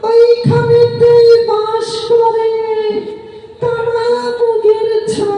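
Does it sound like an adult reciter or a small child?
small child. It is recited in a two-year-old child's voice.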